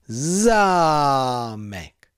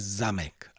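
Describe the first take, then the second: First: The first vowel is long. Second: The first vowel is short. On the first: The speaker calls it right. "ale zámek" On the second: The speaker calls it wrong. "Pozor, ne zamek"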